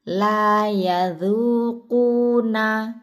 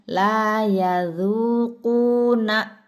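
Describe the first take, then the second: First: The ending is released smoothly without pressing. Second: The ending is pressed with a glottal catch. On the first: The speaker calls it right. "Yang di belakang tidak perlu ditekan" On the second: The speaker calls it wrong. "bukan la yadhuquna"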